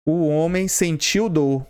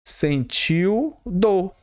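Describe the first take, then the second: First: Said in the usual way. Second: "sentiu dor" drawn out very slowly; slow emphasis. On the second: Shown as a demonstration. Teacher stressing the example for the class, slowly. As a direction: stretch "sentiu dor" word by word. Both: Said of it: "Vamos supor um exemplo".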